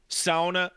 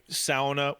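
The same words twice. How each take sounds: First: "Sauna" with an OW first vowel, SOW-nah; Finnish sauna. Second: "sauna" with an AW first vowel, SAW-nuh; anglicized sauna. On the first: Gamer preferring the Finnish word as more fun, "Sauna" said as SOW-nah. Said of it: "I don't know why sauna was anglicized". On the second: Gamer questioning the anglicized word, "sauna" said as SAW-nuh. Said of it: "anglicized as sauna". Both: Shown as a demonstration.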